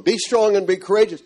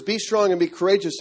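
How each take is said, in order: First: A bit higher, the words ringing back; echoing voice. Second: Said in the usual way. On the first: Retold or imitated. A man recalls the verse echoing back in his room. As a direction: let the verse echo around the room. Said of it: "and it echoes in the room". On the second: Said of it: "I've just read the words".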